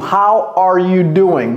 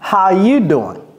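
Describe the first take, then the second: First: Said slowly with every word, including 'are'. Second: Said quickly with 'are' left out entirely. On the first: "pas aussi lentement que ça" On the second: "le R est complètement parti"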